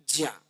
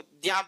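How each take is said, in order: First: The syllable begins with a j plus nasal glide. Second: The syllable begins with a d plus y glide. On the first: This is the pure traditional pronunciation. "इन तीन वर्णों को मिलाकर के बनता है ज्या। ये विशुद्ध रूप से इसका उच्चारण" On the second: Some regions say it this way. "कहीं इसको द्या बोल देते हैं"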